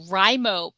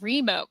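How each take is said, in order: First: The first vowel sounds like in 'write'. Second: The first vowel sounds like in 'reed'. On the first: It matches the word writing. The speaker calls it right. "I'm fine with Rimo" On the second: It does not match the word writing. The speaker calls it wrong. "but not Remo because it's writing"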